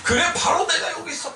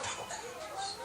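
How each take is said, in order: First: 바로 내가 여기 있어 called out with a laugh; emphatic declaration. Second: "바로 내가 여기 있어" breathed as a whisper. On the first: Preacher voicing God's answer to the church, laughing proclamation. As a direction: proclaim "그래, 바로 내가 여기 있어" joyfully. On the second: Preacher voicing God's answer to the church, whispered. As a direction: whisper "바로 내가 여기 있어" intimately. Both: Shown as a demonstration. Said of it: "Here이 붙다는 뜻은".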